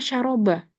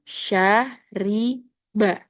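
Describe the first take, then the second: First: The middle vowel is an 'a' sound. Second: The middle vowel is an 'i' sound. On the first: The speaker calls it wrong. "Kurang tepat" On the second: The speaker calls it right. "Minum itu syariba"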